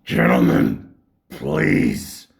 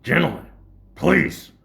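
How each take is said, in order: First: Much lower, loud, heavy voice; deep stern teacher voice. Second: Loud, formal call to order; stern teacher impression. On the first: Retold or imitated. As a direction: boom it out like a menacing teacher. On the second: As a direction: hush the class like a stern teacher. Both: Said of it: "he'd be like".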